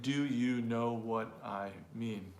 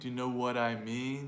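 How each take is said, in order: First: Each word is said separately and distinctly. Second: The words run together into one linked phrase. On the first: The speaker calls it wrong. "not saying" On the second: The speaker calls it right. "So maybe linking those words together"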